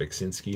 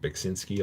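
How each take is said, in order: First: The name is said with an American pronunciation. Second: The same.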